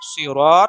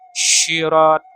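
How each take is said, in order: First: The word begins with an emphatic s sound. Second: The word begins with an sh sound. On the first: "seperti dalam dalam dalam kata sod ya" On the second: "huruf sya atau huruf shin"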